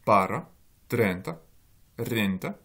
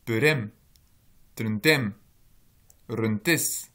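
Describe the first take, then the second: First: "para, trenta, renta", each stressed on its first syllable. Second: "perem, trentem, rentes", each stressed on its final syllable; stress on last syllable. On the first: Lecturer shows students column A accent, first-syllable stress. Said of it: "il est sur la première syllabe". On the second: Lecturer shows students column B accent, last-syllable stress. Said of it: "il est sur la dernière syllabe". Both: Shown as a demonstration.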